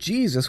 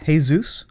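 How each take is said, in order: First: The name starts with an English 'j' sound. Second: The name starts with a breathy 'h' sound. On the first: "English speakers call him Jesus with a J" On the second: "Spanish, Jesus"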